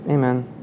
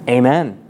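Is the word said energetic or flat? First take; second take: flat; energetic. First: It is said flatly, without much energy. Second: It is said forcefully, with strong energy. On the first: The response is said out of habit. The speaker calls it wrong. "We say it kind of like" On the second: The speaker truly affirms it with conviction. The speaker calls it right. "there should be a sense of like, oomph behind that response"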